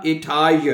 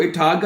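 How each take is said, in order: First: Etagen as "eh-TAA-yen", no hard g; soft-g pronunciation. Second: Etagen with a hard g, "eh-TAA-gen"; hard-g mispronunciation. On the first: Teacher shows learners how to read it, Etagen as "eh-TAA-yen". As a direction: glide through Etagen with a y sound for g. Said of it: "Etagen पढ़ना है आपने". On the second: Teacher shows learners what not to read, Etagen with hard g. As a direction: say Etagen wrongly, g as in "go". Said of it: "इसको Etagen नहीं पढ़ना". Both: Shown as a demonstration.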